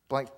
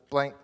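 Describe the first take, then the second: No difference in how they are said.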